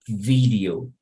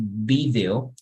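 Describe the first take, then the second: First: It begins with a v sound, teeth on lip. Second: It begins with a b sound, lips together. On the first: The speaker calls it right. "you would say video" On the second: The speaker calls it wrong. "we wouldn't say video"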